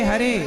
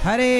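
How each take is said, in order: Both takes have the same delivery.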